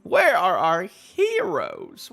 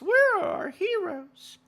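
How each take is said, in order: First: Said in the usual way. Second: Dramatic cry. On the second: Acted. Dramatic repeat after anime line.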